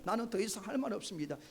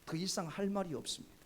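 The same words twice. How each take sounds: First: Fast, firm 할 말이 없습니다 with a falling end; firm refusal. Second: Said in the usual way. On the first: Retold or imitated. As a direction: quickly shut the king down. (빠르고 단호하게) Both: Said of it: "왕이 그런 말을 해도".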